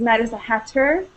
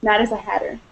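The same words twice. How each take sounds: First: The middle of 'hatter' has a crisp T sound. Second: The middle of 'hatter' sounds like a soft D. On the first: "the way it's supposed to be pronounced" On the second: "a lot of times you will hear it"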